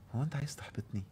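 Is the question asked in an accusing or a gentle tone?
gentle. The question sounds gentle and sincerely curious. It invites the other person to offer reassurance. The speaker calls it right. "هيقول لي: لا طبعا بالعكس انا عايز احفزك"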